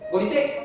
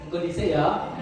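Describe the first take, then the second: First: It sounds angry and curt. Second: It sounds gentle and friendly.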